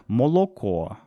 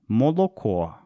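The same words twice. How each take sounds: First: Every o is pronounced fully, northern dialect style. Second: Every o is pronounced fully, northern dialect style.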